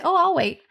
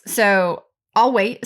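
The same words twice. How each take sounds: First: "Oh, I'll wait" lifted high and light, said politely. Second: Said in the usual way. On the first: Shown as a demonstration. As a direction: pause them gently with "Oh, I'll wait". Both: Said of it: "you say".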